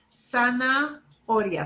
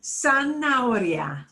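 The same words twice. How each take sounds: First: "Zanahoria" slowly, with a break after "Zana"; slow two-part "Zanahoria", H silent; split into two parts. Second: "Zanahoria" run together, slow and falling; joined-up "Zanahoria" with silent H; parts joined together. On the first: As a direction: say "Zanahoria" as sana, pause, oria. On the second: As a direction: say "Zanahoria" whole, gliding from A to O without H. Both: Shown as a demonstration. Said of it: "Split it into two parts".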